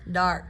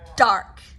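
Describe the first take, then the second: First: The D is light, with air projected forward. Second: The D is pressed hard against the ridge. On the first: The speaker calls it right. "projecting that air" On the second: The speaker calls it wrong. "me pushing against alveolar ridge"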